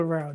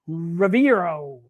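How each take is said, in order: First: Rivero said quickly as three syllables, ri-VE-ro; settled pronunciation. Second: Riviero drawn out slowly, sounded as ri-vi-E-ro with four syllables; careful first try at the name. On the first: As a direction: drop the extra syllable and just say Rivero. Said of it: "You going with Rivero?". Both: Shown as a demonstration.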